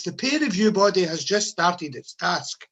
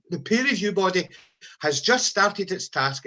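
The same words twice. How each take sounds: First: Said in the usual way. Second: Slower, each word laid down deliberately; slow pointed repeat. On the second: Shown as a demonstration. Nurses' leader repeating the news to members, slow and pointed. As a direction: repeat it slowly so it sinks in. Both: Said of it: "Well, news just in, folks".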